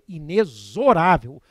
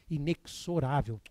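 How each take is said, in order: First: The x is pronounced as a z sound. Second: The x is not pronounced as a z sound. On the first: The speaker calls it right. "com fonema Z" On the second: The speaker calls it wrong. "é tão comum a gente ouvir por aí, bem baixinho"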